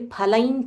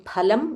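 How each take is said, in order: First: The final nasal is a palatal ny sound. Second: The final nasal is an m with closed lips. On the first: "The Anunasika nya we are using here" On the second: "Instead of saying phalam and then Chaiva, you have to close your mouth, lips"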